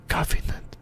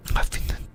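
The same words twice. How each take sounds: The two takes are said the same way.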